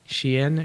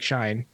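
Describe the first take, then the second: First: It does not sound like the word 'shine'. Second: It sounds like the English word 'shine'. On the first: This is how the name is actually pronounced. The speaker calls it right. "I'm told it's pronounced Shein" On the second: This is how the written name looks. The speaker calls it wrong. "it looks like Shine"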